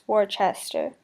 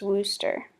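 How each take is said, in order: First: The name is said in three syllables. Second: The name is said in two syllables. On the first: This is how the film said the name. The speaker calls it wrong. "was pronounced Worcester" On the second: This is the real way to say the name. The speaker calls it right. "The actual pronunciation is Wooster"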